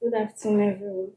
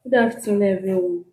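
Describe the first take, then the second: First: Soft, barely heard greeting; too quiet. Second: Greeting repeated with more voice; louder. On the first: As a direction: greet the room too softly. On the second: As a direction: speak up for the room. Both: Real, not acted. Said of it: "Speak loud".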